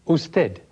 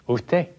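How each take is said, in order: First: The s before the t sounds like s. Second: The s before the t sounds like h.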